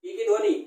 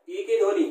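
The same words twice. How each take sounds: The two takes are said the same way.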